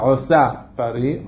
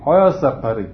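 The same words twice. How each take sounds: First: The first word is stressed on its last syllable. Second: The first word is stressed on its first syllable. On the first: The speaker calls it wrong. "אני לא אומר עוסה פרי" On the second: The speaker calls it right. "אז אני משיג את הטעם אחור"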